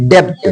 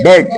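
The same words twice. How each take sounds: First: डेप्ट with a p sounded before t; wrong pronunciation. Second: डेट with a silent b, e straight into t; correct pronunciation. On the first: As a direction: mispronounce डेप्ट, releasing the p. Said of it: "अभी तक आप लोग क्या बोलते थे". (डेप्ट, प के साथ गलत उच्चारण) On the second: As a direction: say डेट with nothing before the t. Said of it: "लेकिन डेप्ट नहीं बोलना". (डेट, ब silent) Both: Shown as a demonstration.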